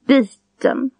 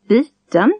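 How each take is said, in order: First: The word is said with a single tone. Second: The word is said with a double tone. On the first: "Single tone" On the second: "Double tone"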